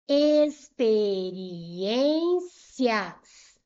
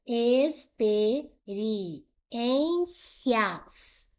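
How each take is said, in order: First: "Experiências" drawn out loudly, swelling on ÊN; stressed ÊN. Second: "Experiências" very slowly split: ex, pe, ri, ên, cias; syllable by syllable. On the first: Teacher showing penúltima is strongest, ÊN in "Experiências" held. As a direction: stretch it slowly, experi-ÊÊN-cias. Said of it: "penúltima foi a mais forte". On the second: Teacher separating a word for students, syllable by syllable. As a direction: gap after each syllable of "Experiências". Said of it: "Vamos separar aqui experiências". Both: Shown as a demonstration.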